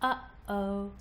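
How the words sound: Each vowel starts with a sharp glottal pop. "Notice the pop or glottal stop as you release the vocal folds"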